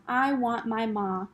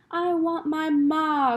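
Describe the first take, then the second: First: A slower, subdued repeat. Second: High, slow, loud wail for her mother; a slow, pleading wail; crying out. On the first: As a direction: say it again, hushed and slow. Repeated softer. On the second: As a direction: cry it out like a lost child. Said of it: "cried Meg". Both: A narrator's reading.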